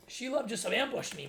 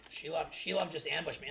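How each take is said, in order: First: Hammed-up excited. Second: Said in the usual way.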